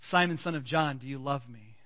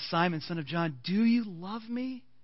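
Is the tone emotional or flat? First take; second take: flat; emotional. First: The question is asked in a flat, casual tone. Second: The question is asked in a deep, emotional tone. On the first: The question is asked casually, without deep feeling. "maybe it was a little bit flat" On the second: The question is asked at a deep emotional level. "And maybe by the third time it was"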